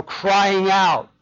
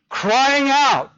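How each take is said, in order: First: Said in the usual way. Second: Raised, higher cry. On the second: Shown as a demonstration. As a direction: cry it out loud and high. Preacher dramatizes the phrase just said.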